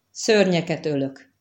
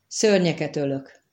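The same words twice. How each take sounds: First: Wondering, hesitant. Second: Said in the usual way. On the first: Acted. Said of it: "a hangjában egyszer csak, mintha valami csodálkozásféle". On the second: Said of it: "ismételte meg".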